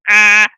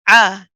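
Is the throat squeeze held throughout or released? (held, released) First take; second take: held; released. First: The throat squeeze is held through the whole vowel. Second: The throat squeeze is released right after the start. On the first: The speaker calls it wrong. "we don't keep the squeeze going for the whole duration. We don't say" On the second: The speaker calls it right. "you squeeze and then let go and relax"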